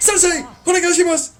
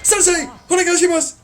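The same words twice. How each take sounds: First: It is said loudly with fiery passion. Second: It is said loudly with fiery passion.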